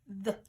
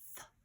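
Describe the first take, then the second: First: The th sound is said hard. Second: The th sound is said softly. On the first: "Hard sound" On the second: "let's do soft sound first"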